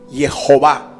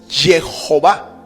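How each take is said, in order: First: The name begins with a soft Y sound. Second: The name begins with a harsh J sound. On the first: "no transliteraron la Yud como una J, sino como una Y" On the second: "la Yud como una J"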